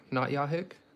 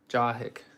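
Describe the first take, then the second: First: The name begins with a Y sound. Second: The name begins with a J sound. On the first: The speaker calls it wrong. "I see a J and I want to go ya" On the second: The speaker calls it right. "Is it ja?"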